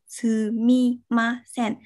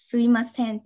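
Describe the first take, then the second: First: Every syllable is said slowly, with two lip closures. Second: It is said quickly, with a syllable dropped. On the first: "bạn phát âm chậm hai cái cụm từ sumimasen ra" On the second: "người ta sẽ nói chạy đi một chút"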